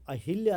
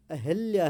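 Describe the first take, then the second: First: अहिल्या read as the wrong form, with a short i after ह; wrong spelling read out. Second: अहिल्या said as the correct form, with an e after ह and a louder push; correct spelling stressed. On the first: Teacher showing students the wrong spelling, read aloud plainly. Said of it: "अहिल्या नहीं है". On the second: Teacher giving students the correct word, stressed and louder. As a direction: say अहिल्या the right way, a bit louder. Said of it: "वो अहिल्या है". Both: Shown as a demonstration.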